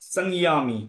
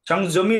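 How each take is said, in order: First: The middle consonant sounds like English 'y'. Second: The middle consonant sounds like English 'j'. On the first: The speaker calls it right. "অন্তর্জার উচ্চারণ হবে ইয়া" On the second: The speaker calls it wrong. "সংযমী নাই"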